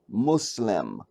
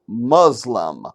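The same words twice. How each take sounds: First: The word is said like 'Mu-Islam'. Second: The word is said the common English way. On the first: The speaker calls it right. "Mu Islam" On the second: The speaker calls it wrong. "they're the only ones that say it like that"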